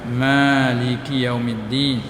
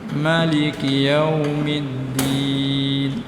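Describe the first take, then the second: First: The first vowel of maliki is long. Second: The first vowel of maliki is short.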